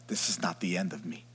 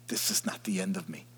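First: Said in the usual way. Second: Hushed inner vow; whispered. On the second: Acted. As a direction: whisper the repeat softly to yourself. Repeats affirmation as whisper.

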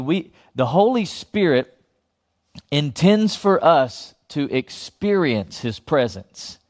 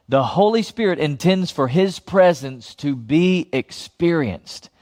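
First: First saying. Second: Said in the usual way. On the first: Shown as a demonstration. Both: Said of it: "I'm gonna say that again".

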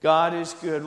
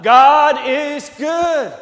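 First: Said in the usual way. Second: God is good, slow, much higher and louder; emphatic proclamation. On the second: Shown as a demonstration. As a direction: drag out every word of God is good, booming. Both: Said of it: "I can't emphasize it enough".

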